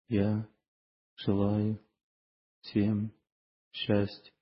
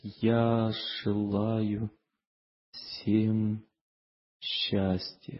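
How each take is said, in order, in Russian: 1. Её произносят ровно и быстро, без всякого чувства. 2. Её произносят медленно и с серьёзным чувством. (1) "на автомате повторяет все" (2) "он обдумывает серьезно"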